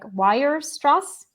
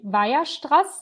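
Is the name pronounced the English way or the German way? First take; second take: English; German. First: The name is said with an English pronunciation. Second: The name is said with a German pronunciation. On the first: "a lot of like English people say something like" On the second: "the German, how you pronounce this is actually"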